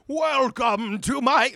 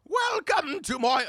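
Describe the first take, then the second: First: It is said in a lower voice. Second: It sounds like an angry old lady.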